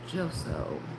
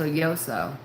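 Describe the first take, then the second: First: The name begins with a J sound. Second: The name begins with a Y sound. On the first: The speaker calls it wrong. "Is that how you say your name? I don't want to say it wrong" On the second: The speaker calls it right. "Just say J, like you say Y"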